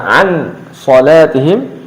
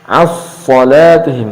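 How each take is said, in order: First: The n is pronounced clearly before the s. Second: The n disappears fully into the s. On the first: "Tidak dibaca an salatihim" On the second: "tidak pula dibaca as salatihim"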